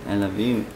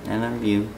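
Both takes have the same delivery.

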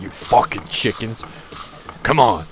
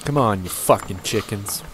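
First: Snapping at the chickens in jest; a half-joking angry snap at the chickens; mock angry yell. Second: Aggressive. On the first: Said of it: "I was, like, really angry at the". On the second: Real, not acted. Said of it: "That was really aggressive".

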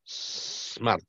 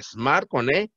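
First: Smart whispered with a long hissed s, no e before it; hissed pronunciation. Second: Smart said with an e in front, like esmart; wrong pronunciation. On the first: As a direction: hiss the s of Smart. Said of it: "Pero sí es smart". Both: Shown as a demonstration.

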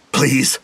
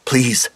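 First: Crying out. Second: Pleading. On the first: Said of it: "Jeremy cried". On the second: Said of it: "Tasha said". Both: A narrator's reading.

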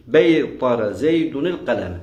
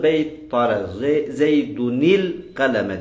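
First: Said in the usual way. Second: "beytara zeydunil kaleme" chunked for memorizing; rote-style "zeydunil kaleme" with the full ending; memorization recitation. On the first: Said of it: "Ezber yaptığınızda". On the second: Shown as a demonstration. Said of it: "Ezber yaptığınızda ... diyeceksiniz".

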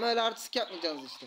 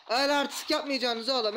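First: Said in the usual way. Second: Louder, higher jeer at the beaten enemies; loud mocking put-down; gloating taunt. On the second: Real, not acted. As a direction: scold them like a cocky winner.

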